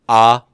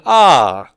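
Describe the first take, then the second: First: The pitch stays level. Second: The pitch rises and then falls. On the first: "not just ah" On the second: "a combination of rising and falling tone"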